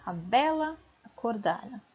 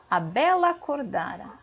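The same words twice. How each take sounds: First: "a bela", short break, "acordara"; words set apart. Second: "bela acordara" fused as belacordara, no gap; "A bela acordara" in one joined flow; vowels run together. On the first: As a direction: hold "bela", then say "acordara" separately. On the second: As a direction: glide from "bela" straight into "acordara", sharing one A. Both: Shown as a demonstration. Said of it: "ele sai junto, ó".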